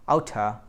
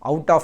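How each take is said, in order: First: The two words blend into one reduced word. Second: The two words are said fully and separately.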